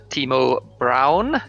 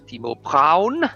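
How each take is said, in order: First: The name is said with English pronunciation. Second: The name is said with German pronunciation.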